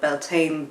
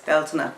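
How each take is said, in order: First: The name is said with an anglicized pronunciation. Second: The name is said with an Irish Gaelic pronunciation. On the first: This is the form some people use. "sometimes people call it Beltane" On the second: This is the original Gaelic form. "the Gaelic pronunciation is Bealtaine"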